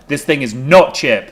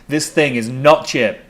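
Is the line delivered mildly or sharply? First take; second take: sharply; mildly. First: The line is snapped out sharply and angrily. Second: The line is said mildly, without a sharp edge. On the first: The speaker calls it right. "Much better. Good snap" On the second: The speaker calls it wrong. "I think you should snap more with that line"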